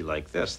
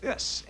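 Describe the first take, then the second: First: Said in the usual way. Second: "this" pitched high and exaggerated; "this" in exaggerated high baby-talk pitch; exaggerated baby-directed talk. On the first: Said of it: "if you talk to the baby". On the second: Shown as a demonstration. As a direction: swoop up high on "this". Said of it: "if you exaggerate and talk".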